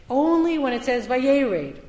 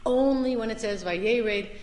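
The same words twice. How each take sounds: First: First take louder, punching "Vayered"; "Only when it says, Vayered" said with force; emphatic repeat. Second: Said in the usual way. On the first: Shown as a demonstration. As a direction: lean hard on "Vayered" the first time. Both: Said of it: "repeats phrase for emphasis".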